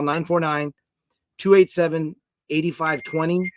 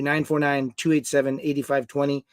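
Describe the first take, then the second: First: The number read slowly, digit groups spaced out; careful, deliberate phone number read; slow dictation. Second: Said in the usual way. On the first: Shown as a demonstration. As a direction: dictate it slowly so people can write it down. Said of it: "and text the word". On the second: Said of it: "I G D, to".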